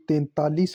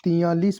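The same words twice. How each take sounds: First: तैंतालीस said as "tentaalis"; careful "ten-TAA-lis" for तैंतालीस; correct pronunciation. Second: तियालीस said as "tiyaalis"; everyday "ti-YAA-lis" for तियालीस; colloquial mispronunciation. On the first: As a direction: sound the n and second t in तैंतालीस. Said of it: "ये तैंतालीस होता है". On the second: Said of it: "बोल देते हैं अपन". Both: Shown as a demonstration.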